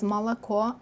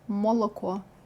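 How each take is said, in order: First: The unstressed O vowels sound like A. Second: The unstressed O vowels sound like full O. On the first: The speaker calls it right. "It turns into something more like A" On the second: The speaker calls it wrong. "not молоко"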